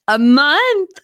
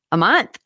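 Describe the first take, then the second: First: Higher, louder, choked with happy tears; overwhelmed happy crying; teary joy. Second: Said in the usual way. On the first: Real, not acted. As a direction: let the tears break through the word. Repeating the wedding news.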